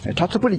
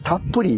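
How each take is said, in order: First: The 'tsu' is said as a full syllable. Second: The 'tsu' is a short held pause. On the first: The speaker calls it wrong. "たつぷりって読むんですよね" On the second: The speaker calls it right. "たっぷりやって言うてね"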